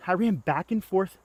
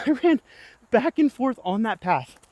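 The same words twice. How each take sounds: First: Said in the usual way. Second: Laughing retelling. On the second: Retold or imitated. Retelling the bee chase, laughing.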